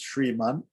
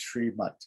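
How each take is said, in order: First: The word ends with an n sound. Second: The word ends with a t sound.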